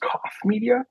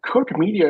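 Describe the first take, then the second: First: The first word sounds like 'cough'. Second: The first word rhymes with 'book'. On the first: The speaker calls it right. "is pronounced Cough Media" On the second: The speaker calls it wrong. "I thought it was Cook"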